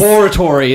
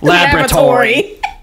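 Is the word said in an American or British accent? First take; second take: British; American. First: The word is said in a British accent. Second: The word is said in an American accent. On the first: "It's because they say just" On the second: "instead of"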